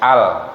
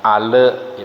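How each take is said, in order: First: The word ends cleanly on the l sound. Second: The word ends with an added vowel sound. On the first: The speaker calls it right. "tapi al ya, jelas" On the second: The speaker calls it wrong. "jangan ale"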